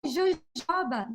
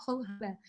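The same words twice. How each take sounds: First: Jojoba drawn out slowly as "zho-ZHAH-bah"; Portuguese pronunciation. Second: Jojoba as a quieter "ho-HO-bah"; American pronunciation. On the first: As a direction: read jojoba slowly and higher, with zh sounds. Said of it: "they wrote it down like". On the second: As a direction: say jojoba softly with H sounds, "hoh-HOH-bah". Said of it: "It sounds so funny when people say that". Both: Shown as a demonstration.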